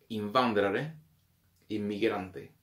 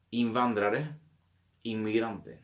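No difference in how they are said.

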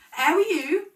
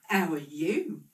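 First: Higher and louder, rising; screeching greeting. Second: Said in the usual way. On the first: A narrator's reading. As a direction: call the greeting out high and loud. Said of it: "screeched Una". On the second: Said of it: "returned the other".

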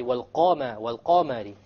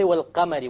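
First: "wal-Qamari" with a thick, dark vowel after the Qaf; full back Qaf in "wal-Qamari"; heavy Qaf. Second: "wal-Qamari" with a thin, light vowel after the Qaf; lightened "Qa" in "wal-Qamari". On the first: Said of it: "The Fatha of the Qaf is heavier". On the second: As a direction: say "wal-Qamari" without any heaviness on "Qa". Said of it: "We don't say". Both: Shown as a demonstration.

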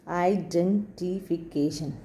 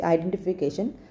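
First: "Identification" broken into slow, separate beats; slow syllables. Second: Said in the usual way. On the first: Shown as a demonstration. Teacher giving a polysyllabic example, "Identification" said slowly syllable by syllable. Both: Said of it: "When you say slowly".

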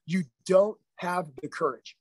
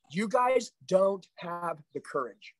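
First: Slow, weighty repeat; slow emphatic. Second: Slow, weighty accusation; slow emphatic. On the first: Coach repeats to his sales team that they lack courage, heavier still. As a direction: say it again, slower and heavier. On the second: Coach tells his sales team they lack courage, slow and weighty. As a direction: lean on each word slowly. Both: Real, not acted. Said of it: "repeated for emphasis".

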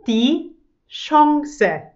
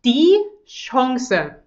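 First: Chance again as "schongse", slightly higher; French nasal Chance, repeated. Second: Chance said as "schongse", nasal French vowel. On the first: Teacher repeating Chance for learners, French-style "schongse". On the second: Teacher modelling Chance for German learners, nasal French-style "schongse". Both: Shown as a demonstration. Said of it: "Nummer eins".

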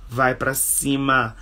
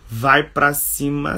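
First: Said in the usual way. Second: "Vai pra cima" with an encouraging rise; rising push. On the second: Shown as a demonstration. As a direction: urge them on with a lift on "Vai pra cima".

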